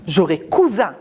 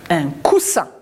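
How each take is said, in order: First: J'aurai cousin with a voiced z; pronounce z. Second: Un coussin with a sharp s; pronounce s. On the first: Teacher contrasting cousin with coussin. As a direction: buzz the s in cousin as z. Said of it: "Si j'enlève le S". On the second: Teacher modelling coussin for the children. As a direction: hiss the ss in coussin. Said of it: "Deux S". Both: Shown as a demonstration.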